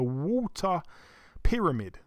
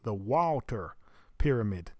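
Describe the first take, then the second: First: It is said in a British accent. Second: It is said in an American accent.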